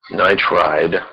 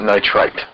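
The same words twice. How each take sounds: First: Nitride said slowly, ending in a voiced d; careful "-ide" ending. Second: Nitrite ending in a sharp t; crisp "-ite" ending. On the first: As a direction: Nitride with a long "eye" and a d ending. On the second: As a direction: cut nitrite short on a hard t. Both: Shown as a demonstration. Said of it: "is not nitrite".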